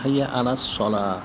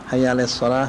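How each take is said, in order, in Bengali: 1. শব্দটি 'ala' 'a' স্বরে উচ্চারিত হয়। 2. শব্দটি 'ala' 'e' স্বরে উচ্চারিত হয়।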